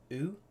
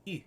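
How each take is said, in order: First: "oo" as an English back vowel; plain English "oo" vowel. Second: "oo" as the fronted French u. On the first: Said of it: "So we would say". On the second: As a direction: say "oo" the French way, tongue forward, lips rounded. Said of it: "and they would say". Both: Shown as a demonstration.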